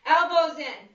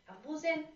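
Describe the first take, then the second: First: Said in the usual way. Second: Quiet repeat. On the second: Shown as a demonstration. Trainer softly re-cueing class, quiet repeat. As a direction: repeat "Elbows in." much softer, almost to herself.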